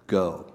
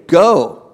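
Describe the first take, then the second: First: Much lower and softer Go; softly repeated command. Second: Loud, higher single word Go; proclaimed command. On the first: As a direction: let Go. drop to a near hush. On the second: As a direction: ring out Go. like a command from the pulpit. Preacher proclaims Jesus' command. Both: Acted.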